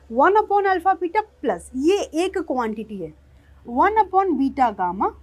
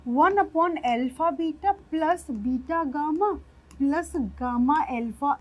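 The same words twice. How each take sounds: First: Louder, each 'one upon' term set apart; correcting, emphatic. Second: Slow, careful dictation of the wrong form; wrong way, slowly. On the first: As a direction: stress every 'one upon' as its own term. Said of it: "जो सरासर गलत है भाई साहब". (हर 'one upon' पर ज़ोर देकर सुधारते हुए) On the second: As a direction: spell out the mistake word by word, slowly. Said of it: "जो सरासर गलत है". (गलत तरीका धीरे-धीरे बोलते हुए) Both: Shown as a demonstration.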